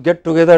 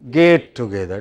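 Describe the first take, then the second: First: The first word has a short 'e' vowel, like 'get'. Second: The first word has a long 'ay' vowel, like 'gate'. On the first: The speaker calls it right. "many people pronounce get together as" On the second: The speaker calls it wrong. "as gate together. You know, gate is another matter"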